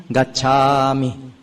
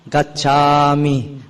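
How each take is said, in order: No difference in how they are said.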